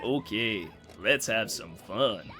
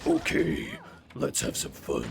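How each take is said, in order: First: The voice sounds loose, friendly and slightly tipsy. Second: The voice sounds dark, cold and threatening. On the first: The character is a harmless, jolly relative. The speaker calls it right. "he sounds more like your mildly drunk uncle" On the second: The character is about to hurt someone. The speaker calls it wrong. "he doesn't sound like he's about to fucking murder you"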